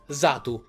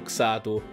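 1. Il nome inizia con un suono z. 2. Il nome inizia con un suono ks. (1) "Quindi C S diventa S, e si legge Zatu" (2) "Io l'ho sempre letto Xatu e credo che tutti quanti noi italiani l'abbiamo sempre letto Xatu"

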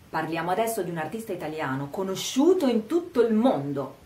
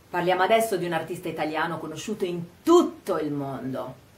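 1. La parola conosciuto porta l'enfasi principale. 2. La parola tutto porta l'enfasi principale. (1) "enfatizziamo il fatto che sia conosciuto in tutto il mondo" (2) "vogliamo dire che il mondo è proprio tutto"

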